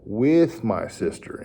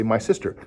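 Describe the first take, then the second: First: "With" drawn out slowly before "my sister"; stress on With. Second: Said in the usual way. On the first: Shown as a demonstration. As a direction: correct the child by leaning on "With". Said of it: "Emphasize that word". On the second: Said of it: "and they might say".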